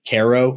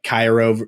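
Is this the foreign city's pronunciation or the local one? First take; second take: local; foreign. First: It uses the local pronunciation of the town. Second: It uses the usual pronunciation of the foreign city. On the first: It names the local town. "we say Cairo" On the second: It names the famous city abroad. "famous cities in other countries"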